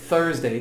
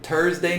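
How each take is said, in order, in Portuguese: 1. A palavra começa com um 'th' suave. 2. A palavra começa com um 't' simples. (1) "tem que falar T H" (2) "não existe"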